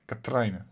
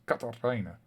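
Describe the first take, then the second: First: No vowel sound falls between t and r. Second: An extra vowel sound falls between t and r. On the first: The speaker calls it right. "but Katrine" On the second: The speaker calls it wrong. "Katarine has an extra letter in between it"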